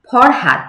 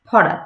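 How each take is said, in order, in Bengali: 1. এতে h ধ্বনি আছে আর এটি d দিয়ে শেষ হয়। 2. এখানে h ধ্বনিটি বাদ যায় আর এটি t দিয়ে শেষ হয়। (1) "আমরা ফরহাদ জানি" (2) "গ্রামে গঞ্জে সেটাকে আমরা কি বলি ফরাত"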